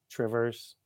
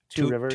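First: The two words are squeezed into one short word. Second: The two words are said fully and separately. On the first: This is how locals say the place name. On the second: This is the name as it is written.

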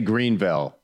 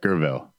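First: It is said in a standard accent. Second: It is said in a local Southern accent. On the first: This is how outsiders say the name. "They wouldn't say Greenville" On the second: This is how locals say the name. "Gurville is how they would say it"

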